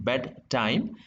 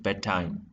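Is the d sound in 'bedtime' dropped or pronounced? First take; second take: pronounced; dropped. First: The d sound is clearly pronounced. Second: The d sound is dropped. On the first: The speaker calls it wrong. "rather than saying bed time" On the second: The speaker calls it right. "you would say bedtime. So what happens is here d is omitted"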